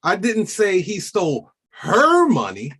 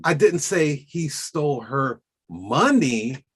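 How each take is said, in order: First: Rising, loud on "her"; stress on her. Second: Slow, leaning on "didnt"; stress on didnt. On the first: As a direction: push "her" up high. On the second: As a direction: take it slow and hit "didnt". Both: Shown as a demonstration. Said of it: "many different ways of doing that".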